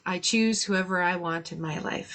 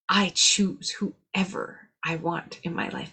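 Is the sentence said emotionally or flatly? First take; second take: flatly; emotionally. First: It is said flatly, without much feeling. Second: It is said emotionally, with strong feeling. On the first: The words are said without really meaning them. The speaker calls it wrong. "it's like, yeah" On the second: The words are truly felt and believed. The speaker calls it right. "when you say it with feeling"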